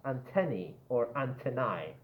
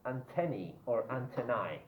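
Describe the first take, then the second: No difference in how they are said.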